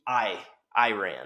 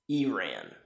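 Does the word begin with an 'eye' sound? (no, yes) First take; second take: yes; no. First: The first syllable starts with an 'eye' sound. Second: The first syllable does not start with 'eye'. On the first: The speaker calls it wrong. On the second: The speaker calls it right.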